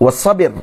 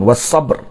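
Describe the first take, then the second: First: A short i vowel follows the b. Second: The b runs straight into the r. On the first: This is the better-known reading. "dibacakan dengan kasrahkan ba' pada asyhar" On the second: This is a rare dialect reading. "Dengan dibaca sukun"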